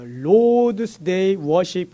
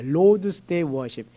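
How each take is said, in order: First: Lord's Day Worship spelled out slowly, Lord's leaned on; Lord's stressed, whole phrase drawn out slowly; slow careful English. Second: Lord's Day Worship drawn out extremely slowly, Lord's falling; Lord's stressed with a fall, phrase crawling; very slow emphasis. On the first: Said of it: "그렇게 써요". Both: Shown as a demonstration.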